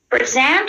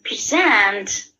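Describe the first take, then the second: First: The stress is on the first syllable. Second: The stress is on the second syllable. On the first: It is used as a noun. "First word is noun" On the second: It is used as a verb. "these are verb"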